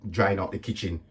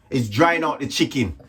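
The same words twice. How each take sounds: First: "kitchen" said by mistake instead of chicken; quietly saying "kitchen" with a soft k; misspoken word. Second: "chicken" corrected, said clearly with ch; corrected word. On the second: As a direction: fix it to "chicken", clear ch sound. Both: Real, not acted.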